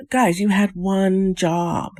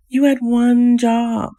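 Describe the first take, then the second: First: Slow, higher, dragged-out scolding; exasperated scolding. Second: Much higher, slow and louder, stressing had; louder exasperation. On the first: Vlogger scolds the couple on the show, exasperated and slow. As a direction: spell it out slowly like to children. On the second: Vlogger repeats it to the couple, louder in disbelief. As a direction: throw up your hands in disbelief. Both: Acted.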